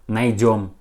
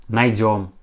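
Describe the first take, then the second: The two takes are said the same way.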